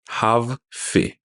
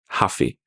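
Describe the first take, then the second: First: The two words are said separately and clearly. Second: The two words are run together quickly.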